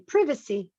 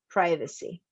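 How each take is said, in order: First: It is said with a British accent. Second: It is said with an American accent.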